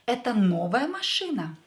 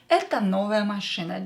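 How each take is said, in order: First: It is said with question intonation. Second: It is said with statement intonation. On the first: Is this a new car? "make a question out of this statement? Just by using your intonation" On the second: This is a new car. "This is just a statement"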